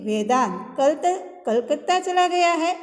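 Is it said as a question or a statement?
question. It is said as a question, ending high. It asks whether the person has gone. "ऐसा हम किसी से पूछते हैं"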